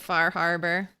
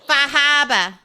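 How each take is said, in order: First: It is said in an out-of-state accent. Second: It is said in the local regional accent. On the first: The speaker is not from the area. "I'll pronounce it Far Harbor. I'm from out of state" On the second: This is how locals say it. "It's pronounced Fahaba"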